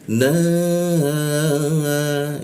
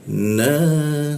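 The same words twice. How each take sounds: First: The vowel is held for three beats. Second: The vowel is held for two beats. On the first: "itu maka dibacanya tiga ketukan" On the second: "seperti itu panjang"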